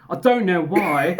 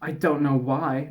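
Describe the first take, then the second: First: Put-on British accent, slow. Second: Said in the usual way. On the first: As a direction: read it as a mock British man, slowly. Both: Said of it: "Oh wait, he's British".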